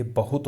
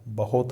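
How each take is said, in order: First: Said in the usual way. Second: बहुत mispronounced as बहोत, with o; wrong pronunciation. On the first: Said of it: "ये बहुत होता है". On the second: Shown as a demonstration. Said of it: "बहुत नहीं". (बहुत में उ की जगह ओ)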